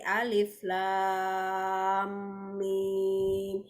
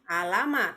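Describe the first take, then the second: First: Each letter is read by its full name. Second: The letters are read as short joined syllables. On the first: The speaker calls it right. "tapi alif lam mim" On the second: The speaker calls it wrong. "bukan alama"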